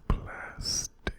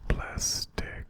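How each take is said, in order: Both takes have the same delivery.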